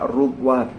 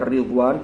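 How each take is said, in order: First: The first vowel is a u sound. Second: The first vowel is an i sound. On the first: "wa dhammiha" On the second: "bi kasri ra"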